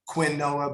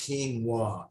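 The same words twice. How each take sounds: First: It is said the way its spelling suggests. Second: It is said differently from how it's spelled. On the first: The speaker calls it wrong. "looks like it's spelled quinoa, but it's not quinoa" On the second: The speaker calls it right. "It's actually pronounced quinoa"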